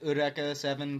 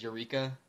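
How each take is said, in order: First: Eureka said "oo-REH-kah", with a tapped r; "Eureka Seven" with Eureka as "oo-REH-kah"; Japanese pronunciation. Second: Said in the usual way. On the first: Shown as a demonstration. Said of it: "they pronounce it Eureka Seven because they're Japanese". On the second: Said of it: "to us, that word is Eureka".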